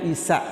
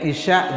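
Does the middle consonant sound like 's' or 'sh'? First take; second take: s; sh. First: The middle consonant is a plain 's' sound. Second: The middle consonant is a 'sh' sound. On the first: The speaker calls it wrong. "jadi isa" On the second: The speaker calls it right. "bahasa kita nggak ada sh"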